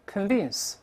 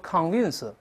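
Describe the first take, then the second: First: The first vowel is a weak, reduced sound. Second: The first vowel is a full, clear 'o'. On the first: The speaker calls it right. "是发"con" 轻读" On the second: The speaker calls it wrong. "所以不要读"convince"，不对啊"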